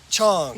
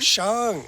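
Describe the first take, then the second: First: The word starts with a ch sound. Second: The word starts with an sh sound. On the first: The speaker calls it wrong. "I've always been saying Chong" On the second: The speaker calls it right. "it's an S H sound"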